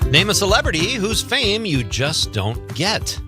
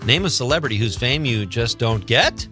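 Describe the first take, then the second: First: The voice falls at the end. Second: The voice rises at the end.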